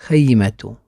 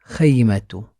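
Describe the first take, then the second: No difference in how they are said.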